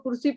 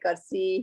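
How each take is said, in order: First: The first syllable has a 'u' vowel. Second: The first syllable has an 'a' vowel. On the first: The speaker calls it right. "आप उसको कुर्सी पढ़ते हो" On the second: The speaker calls it wrong. "he might say like mispronounce it"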